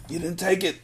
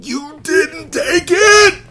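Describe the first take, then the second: First: Quiet, high and gentle; soft insistence. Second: Long, high, slow shout; anguished shout. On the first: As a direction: say it softly, willing her to believe. Breeze repeats the words softly. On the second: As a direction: cry it out at the top of the voice. Breeze shouts to comfort Mia. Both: Acted.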